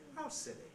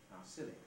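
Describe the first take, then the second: First: It starts high, then jumps down to the nucleus. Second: It starts low, with no pitch jump. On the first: "with a high prehead" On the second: "The simple one is"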